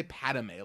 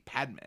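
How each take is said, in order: First: "Padme" said in three syllables, PAD-uh-may; extra syllable. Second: Said in the usual way. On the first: Real, not acted. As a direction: slip an "uh" into the middle of "Padme". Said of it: "Why did I say Padme like that?". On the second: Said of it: "I had an extra E".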